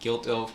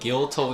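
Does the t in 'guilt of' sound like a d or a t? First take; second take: d; t. First: The t is softened into a d sound. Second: The t is pronounced as a clear t. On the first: "d 발음으로 이제 단절이 약화가 된다든지" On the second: "guilt of라고 해도 이제 좋은 발음이지만"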